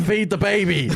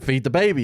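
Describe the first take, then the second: First: Insistent order. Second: Said in the usual way. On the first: Retold or imitated. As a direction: push it harder the third time. Beast repeats order, escalating.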